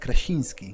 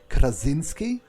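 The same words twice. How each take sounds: First: The name is said with a soft Polish sound. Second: The name is said with a hard English sound. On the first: This is how it is said in Poland. "in Polish it's it's uh, it's softer" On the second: This is how people outside Poland say it. "they call him John Krasinski"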